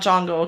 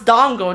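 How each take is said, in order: First: The word begins with a J sound. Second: The word begins with a D sound. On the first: The speaker calls it wrong. "not Jongo" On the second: The speaker calls it right. "it's Dongo"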